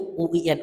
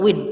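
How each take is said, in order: First: Each letter is spelled out separately. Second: It is said as one word, like win. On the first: The speaker calls it right. "ini tuh U I N" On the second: The speaker calls it wrong. "bukan U I N; enak untuk kemudian win"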